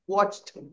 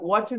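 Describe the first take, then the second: First: The ending is said as a plain t. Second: The ending is said as an extra syllable. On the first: The speaker calls it right. "वॉच्ड ट आणि क च उच्चार" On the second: The speaker calls it wrong. "जसं वॉचड नाहीये"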